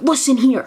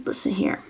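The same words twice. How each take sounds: First: Mock announcer. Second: Softer hushed whisper. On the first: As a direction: announce it like a proud telegram. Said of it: "they're like". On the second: Retold or imitated. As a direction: whisper it like a secret. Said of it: "They're like".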